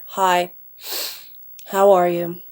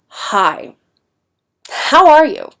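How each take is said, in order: First: It is said in a flat, bored tone. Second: It is said in an angry, irritated tone. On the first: The person feels low or uninterested. "melancholy or kind of bored, their tone becomes a lot flatter" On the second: The person is annoyed with you. "they're kind of angry at you"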